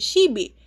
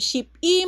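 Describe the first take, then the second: First: The middle consonant is a B sound. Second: The middle consonant is a P sound. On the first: "magiging shibi" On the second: "From ship i"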